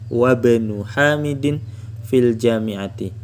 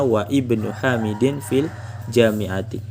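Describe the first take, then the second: First: Wa runs straight into bnu, dropping the i. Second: Wa and ibnu are said separately, keeping the i. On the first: "kalau memakai hamzah wasol"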